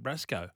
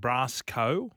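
First: It is said run together as one word. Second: It is said as two separate parts, brass co. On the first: It names the toilet in slang. "they put it together and went Brasco" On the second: It names the brass company. "Instead of saying Brasco, as in brass company"

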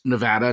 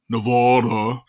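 First: The second vowel sounds like the one in cat. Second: The second vowel sounds like the one in father. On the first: The speaker calls it right. "which is pronounced Nevada" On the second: The speaker calls it wrong. "not Nevada. People in Nevada hate when they pronounce it wrong"

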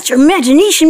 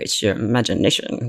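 First: It is said in a happy, enthusiastic tone. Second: It is said in a dismissive, scoffing tone. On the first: The speaker celebrates the idea. "would say it in a happy way and like, yeah" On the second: The speaker doubts the idea. "these people who would say, eh"

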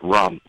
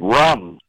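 First: It is said at normal volume. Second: It is said loudly, screamed.

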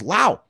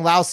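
First: The word ends without any s sound. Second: The word ends with an audible s sound. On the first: The speaker calls it right. "the S in Laos is actually silent. So it's Lao" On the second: The speaker calls it wrong. "we all kept saying Laos the other day on a show. We got in trouble"

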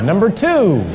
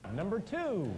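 First: It is said loudly. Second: It is said quietly.

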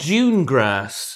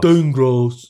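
First: It is said in a British accent. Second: It is said in an American accent.

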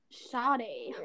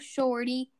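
First: The word has no r and a soft d. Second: The word has an r and a clear t. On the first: "everyone pronounces it shoddy" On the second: "It's supposed to be shorty"

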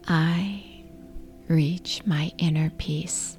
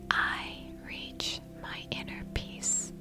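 First: It is said in a normal speaking voice. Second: It is said in a whisper. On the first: "repeat the affirmation in your regular speaking voice" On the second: "Now whisper the affirmation"

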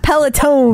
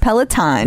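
First: The last syllable sounds like 'tone'. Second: The last syllable sounds like 'tahn'. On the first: The speaker calls it wrong. "It's not Peloton. There's no E on the end of it" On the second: The speaker calls it right. "It's Peloton"

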